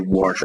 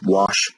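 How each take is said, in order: First: The word is said with an added R sound. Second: The word is said without an R sound. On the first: "I put an R in" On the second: "what would be otherwise wash"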